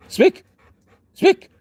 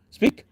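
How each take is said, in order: First: Much higher, louder squeal of Speak; excited high command. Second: Said in the usual way. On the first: Real, not acted. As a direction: egg the dog on with a high, loud call. Commanding dog to bark.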